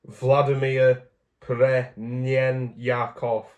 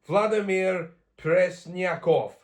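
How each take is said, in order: First: "Premyakov" sounded out very slowly, without the S; mispronounced Russian name. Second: "Presnyakov" said slowly and higher, with the S put in; slow, raised retry of "Vladimir Presnyakov" with a clear S; corrected Russian name. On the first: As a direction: stumble syllable by syllable through "Premyakov", missing the S. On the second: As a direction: sound out "Presnyakov" carefully, S included. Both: Real, not acted. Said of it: "I missed out the S".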